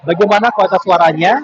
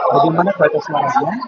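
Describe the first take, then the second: First: The voice is spoken at a louder volume. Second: The voice is spoken at a fairly low volume. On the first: "Sekarang saya berbicara dengan lebih keras, dengan volume yang lebih keras" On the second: "Ini saya berbicara dengan volume yang agak rendah"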